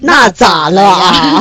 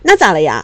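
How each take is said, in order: First: It is said in a cold, challenging tone. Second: It is said in a normal, friendly tone.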